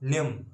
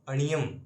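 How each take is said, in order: First: The ending is said as one joined syllable. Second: An extra vowel splits the ending into two syllables. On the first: The speaker calls it right. "अणियम नहीं, न्यम" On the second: The speaker calls it wrong. "कई भक्त पढ़ते हैं अणियम"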